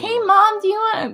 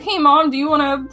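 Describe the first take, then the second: First: It is said in a put-on childlike voice. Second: It is said in the speaker's normal voice. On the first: This imitates how the speaker sounded as a child. The speaker calls it wrong. "I didn't sound like that" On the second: This is the speaker's usual way of talking. The speaker calls it right. "I've always sounded exactly like this"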